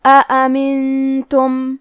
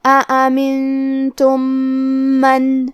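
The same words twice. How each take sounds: First: Slow chanted recitation, the nasal sound held long; tajweed recitation. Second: Slow chanted recitation, the two meems merged into one nasal meem; recitation with ghunna and shadda. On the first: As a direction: recite it slowly and hold the nasal hum. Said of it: "غنہ کے ساتھ یہ حکم کو ادا کریں گے". (آہستہ، غنہ کے ساتھ تجوید والی تلاوت) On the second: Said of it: "غنہ اور تشدید کے ساتھ پڑھیں گے". (آہستہ تلاوت، دونوں میم ملا کر غنہ کے ساتھ) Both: Shown as a demonstration.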